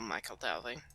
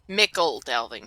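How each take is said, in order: First: The first vowel sounds like 'eye', as in Michael. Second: The first vowel sounds like 'ih', as in Mickle. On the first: The speaker calls it wrong. "I've been pronouncing that Michael Delving for the past ten years" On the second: The speaker calls it right. "It's Mickle Delving"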